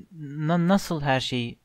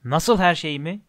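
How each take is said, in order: First: Softer, stammered question; timid, faltering start; hesitant question. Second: Mildly indignant echoed question; understated giant's boom; thundering echo. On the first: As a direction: stumble on the first word, unsure. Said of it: "diye sordu Harry". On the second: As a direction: throw the question back, a touch of thunder. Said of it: "diye gürledi dev". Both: A narrator's reading.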